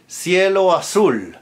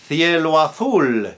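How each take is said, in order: First: It is said in Latin American Spanish pronunciation. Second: It is said in Castilian Spanish pronunciation. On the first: "in Latin America" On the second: "in Castilian Spanish"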